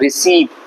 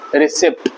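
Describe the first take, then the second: First: No P sound is heard before the final T. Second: A P sound is heard before the final T. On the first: The speaker calls it right. "सही तरीके से अगर बोलना है आपको तो यहाँ P silent है" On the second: The speaker calls it wrong. "English में होता है रिसिप्ट"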